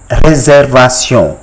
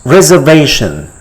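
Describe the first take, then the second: First: "réservation" as ray-zair-va-syon with rolled r; French pronunciation. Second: Said in the usual way. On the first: Shown as a demonstration. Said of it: "It is called". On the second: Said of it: "How do you call it in French".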